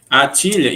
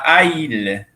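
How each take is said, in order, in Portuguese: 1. Um som de t liga as duas vogais. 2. As duas vogais se encontram sem som de t. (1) "Essa é a inversão dessa mesma pergunta" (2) "se eu não colocasse o T ali, eu ia falar a ilha"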